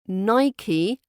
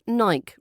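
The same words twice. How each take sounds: First: The word does not rhyme with bike. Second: The word rhymes with bike. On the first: The speaker calls it right. "That's the correct pronunciation" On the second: The speaker calls it wrong. "rhyming with bike"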